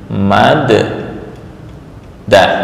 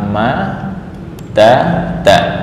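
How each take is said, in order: First: The two d sounds merge into one doubled d. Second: The two d sounds are separated by a vowel. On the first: This is the contracted form with a doubled letter. The speaker calls it right. "tetap dibaca fathah menjadi mad da" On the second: This is the underlying original form. The speaker calls it wrong. "Asalnya adalah ma da da"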